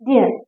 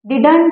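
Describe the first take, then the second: First: The sounds are relaxed and run together. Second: Every sound is pronounced crisply and fully. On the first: The speaker calls it right. "like that" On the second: The speaker calls it wrong. "असा स्पष्ट उच्चार करायचा नाहीये"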